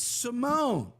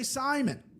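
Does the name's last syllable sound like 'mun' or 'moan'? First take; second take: moan; mun. First: The last syllable is a long 'moan' sound. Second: The last syllable is a short, weak 'mun'. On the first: The speaker calls it right. "It's Simone" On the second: The speaker calls it wrong. "Don't say Simon"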